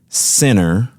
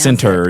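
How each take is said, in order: First: The T sound in the middle is dropped. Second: The T sound in the middle is pronounced. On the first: "my East Texas drawl says center"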